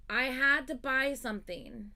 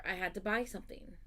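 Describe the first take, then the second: First: "had" drawn out, higher and louder; stress on had. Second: Said in the usual way. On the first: Shown as a demonstration. Telling friends she had to buy something, slow emphatic "had". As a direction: lean hard on "had", slowly and insistently.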